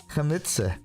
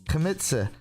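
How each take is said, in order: The two takes are said the same way.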